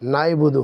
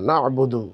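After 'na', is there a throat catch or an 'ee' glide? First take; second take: glide; throat catch. First: An 'ee' glide follows the first syllable. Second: A throat catch follows the first syllable. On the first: The speaker calls it wrong. "ভুল হয়ে যায়, নাইবুদু হয়ে যায়" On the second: The speaker calls it right. "আরবিতে নাইবুদু হবে না, না'বুদু"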